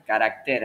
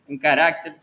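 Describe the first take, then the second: First: "carácter" stressed on the last syllable TER; "carácter" with the stress moved to its end; corrected word stress. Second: "carácter" stressed on the middle syllable RAC; "carácter" as ca-RAC-ter, punched in the middle; stress on second A. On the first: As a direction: say "carácter" as ca-rac-TER, no accent on the A. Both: Real, not acted. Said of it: "un acento en la A".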